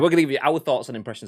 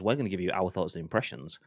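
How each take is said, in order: First: The sentence is spoken very quickly. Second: The sentence is spoken at a slower pace. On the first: The speaker calls it wrong. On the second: The speaker calls it right.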